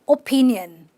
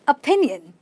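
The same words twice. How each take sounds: First: The first vowel is a full O sound. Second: The first vowel is a weak uh sound. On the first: The speaker calls it wrong. "How many of you have said opinion?" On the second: The speaker calls it right. "now you know it is simply a"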